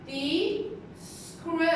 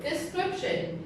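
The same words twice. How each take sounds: First: Description slow, SCRIP leaned on; de-SCRIP-tion, drawn out; teacher drilling description with stress on SCRIP; stress on second syllable. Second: De-scrip-tion, each syllable clear; syllables modelled. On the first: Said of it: "So the stress is on the". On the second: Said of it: "it has three syllables". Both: Shown as a demonstration.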